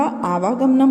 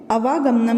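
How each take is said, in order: First: आवागमनम with a long first aa; आवागमनम, long aa at the start; correct form, long aa. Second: अवागमनम with a short first a; अवागमनम with short initial vowel; wrong form, short a. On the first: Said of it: "आ की मात्रा आ जाएगी". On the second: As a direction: say अवागमनम opening on a clipped short a, as the wrong version. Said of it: "नहीं होता". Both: Shown as a demonstration.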